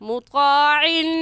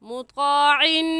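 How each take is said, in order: Both takes have the same delivery.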